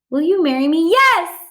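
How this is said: Yes follows the question immediately, with excitement.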